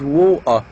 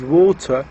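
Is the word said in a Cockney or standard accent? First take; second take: Cockney; standard. First: It is said in a Cockney accent. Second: It is said in a standard accent. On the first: "pronounced as water in Cockney accent" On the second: "pronounced normally as water in London"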